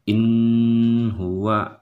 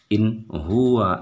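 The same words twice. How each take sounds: First: The n is nasalized and held before the next word. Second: The n is short and clear, without nasal hold. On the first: The speaker calls it wrong. "jangan in huwa, itu salah" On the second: The speaker calls it right. "harus dibaca secara jelas, tidak boleh didengungkan"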